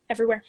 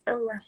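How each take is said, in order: First: Everywhere said louder and quick, like it's obvious; an eager Everywhere; emphatic answer. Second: Said in the usual way. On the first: Real, not acted. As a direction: fire off Everywhere right away.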